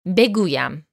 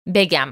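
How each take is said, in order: First: The word is said in its full, three-syllable form. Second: The word is said in a shortened two-syllable form. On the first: This is the formal, written form. "بگویم means I say" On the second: This is the casual, conversational form. "When you're speaking in conversational Persian, بگویم gets reduced to بگم"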